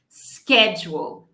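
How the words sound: It begins with an sk sound. "Eu vou pronunciar com esse sk"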